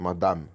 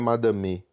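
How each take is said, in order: First: The word ends on the m, vowel silent. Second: The final vowel is pronounced after the m. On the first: The speaker calls it right. "É madame" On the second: The speaker calls it wrong. "Não é madame"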